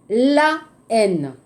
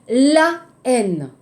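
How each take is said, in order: No difference in how they are said.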